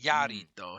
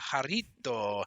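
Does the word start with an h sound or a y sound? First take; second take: y sound; h sound. First: The word begins with a y sound. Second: The word begins with a breathy h sound. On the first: The speaker calls it wrong. "It would not be a" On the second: The speaker calls it right. "the J in Spanish would be like a huh"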